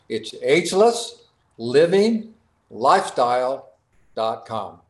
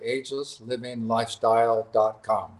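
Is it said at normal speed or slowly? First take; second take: slowly; normal. First: It is said more slowly. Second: It is said at normal speed.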